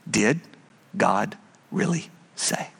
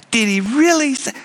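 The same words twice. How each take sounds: First: Low, soft, sinister tempter; Satan's question. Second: Mocking tempter. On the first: Acted. Preacher voicing Satan to Adam and Eve, low and sly. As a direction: whisper the doubt like the serpent. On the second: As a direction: scoff at God's command. Tempter voice again.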